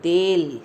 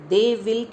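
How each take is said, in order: First: One contracted syllable without the w. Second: Two full words with the w sound. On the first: "व sound हट गया" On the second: "दे विल की जगह"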